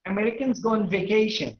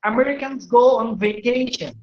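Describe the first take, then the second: First: Said in the usual way. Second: Slow, careful English; slow teacher demo of an American sentence; American model sentence. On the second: Shown as a demonstration. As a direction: model it slowly for learners. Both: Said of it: "Orang Amerika bilang".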